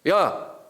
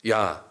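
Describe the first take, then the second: First: It is said in an irritated, annoyed tone. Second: It is said in a plain, neutral tone. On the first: The speaker is upset. "기분 나빴을 때거든요" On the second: It simply calls someone. "그냥 사람을 지칭할 때"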